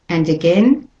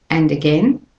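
Both takes have the same delivery.

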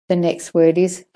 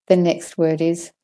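Both takes have the same delivery.

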